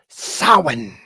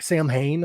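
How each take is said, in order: First: The name is said the traditional way. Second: The name is said as spelled, Sam-Hain. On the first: The speaker calls it right. "It is Samhain" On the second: The speaker calls it wrong. "They pronounce it like Sam Hain, ... which is incorrect"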